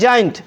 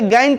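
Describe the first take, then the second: First: The word begins with a J sound. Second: The word begins with a hard G sound. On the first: The speaker calls it right. "जेंट पढ़ना है" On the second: The speaker calls it wrong. "इसे गैंट नहीं पढ़ना है"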